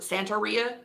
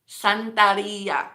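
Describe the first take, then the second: First: The R is a plain English R. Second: The R is rolled. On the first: "some people in English will pronounce it" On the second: "roll your R"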